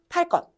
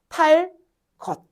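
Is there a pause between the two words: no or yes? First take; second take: no; yes. First: The two words run together without pause. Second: A pause separates the two words. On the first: The second word's first sound becomes tensed. "연달아 발음하면" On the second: The second word's first sound stays plain, not tensed. "여기 한번 쉬면 뒷소리 된소리 안 나요"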